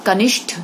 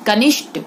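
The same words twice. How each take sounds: First: Said in the usual way. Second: कनिष्ठ with unaspirated final "t"; wrong consonant. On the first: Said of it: "सही". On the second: Shown as a demonstration. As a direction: drop the breath at the end of कनिष्ठ. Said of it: "गलत".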